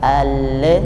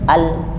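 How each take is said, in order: First: The l sound bounces off sharply. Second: The l sound is cut off abruptly. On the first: "lam itu dia tidak memantul, ya, bunyinya tidak al" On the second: "tidak juga terhenti al"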